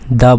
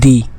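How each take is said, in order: First: The word ends in a short 'uh' vowel. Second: The word ends in a long 'ee' vowel. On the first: It comes before a consonant sound. "ये consonant sound है तो हम इसको क्या बोलेंगे, दा बोलेंगे" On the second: It comes before a vowel sound. "जब वॉल साउंड होता है तो हम क्या बोलते हैं, दी"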